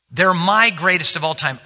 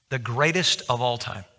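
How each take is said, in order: First: My lifted and louder, the rest falls away; stress on my. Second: Said in the usual way. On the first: Shown as a demonstration. Telling the congregation his friends are his own greatest, stress on my. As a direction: lean on my in They're my greatest of all time.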